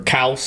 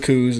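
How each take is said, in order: First: The vowel sounds like the one in 'house'. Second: The vowel sounds like the one in 'moose'. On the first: "or if we're going to be on pronunciation" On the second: "chasing the muleys and the coos"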